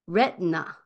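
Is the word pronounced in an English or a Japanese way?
English. It is said with English-style sounds. "英語では"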